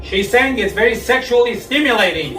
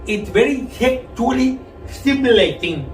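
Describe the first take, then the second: First: Said in the usual way. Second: Garbled tongue-stud speech. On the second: Retold or imitated. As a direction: talk like you just learned to talk. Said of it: "sounded like somebody who just learned how to talk".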